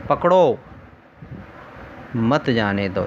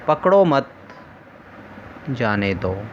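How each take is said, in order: First: "पकड़ो" alone, long pause, then lower "मत जाने दो"; pause after PAKDO. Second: Group मत with पकड़ो, then stop before जाने दो; pause after MAT. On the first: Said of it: "यहाँ अल्प विराम कहाँ लगा?". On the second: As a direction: comma break after मत, dropping on जाने दो. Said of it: "वहाँ अल्प विराम लगा". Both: Shown as a demonstration.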